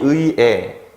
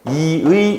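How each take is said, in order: First: The first syllable has ui, the second has e. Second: The first syllable has i, the second has ui. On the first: "에라고 발음해도 돼요" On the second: "이로 발음하는 거를 모두 허용하는"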